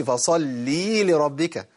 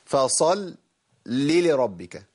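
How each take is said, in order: First: فصلي لربك with a long ee after ل; slow فصلي, final vowel overlong; wrongly added ya. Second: فصلي split on a held لْ, then لربك; measured فصلي لربك, clear lam; held medium lam. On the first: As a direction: stretch فصلي into an extra ياء. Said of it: "ما أضيفش للقرآن ياء". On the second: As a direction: rest briefly on the doubled ل of فصلي. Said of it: "اللام فيها توسط". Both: Shown as a demonstration.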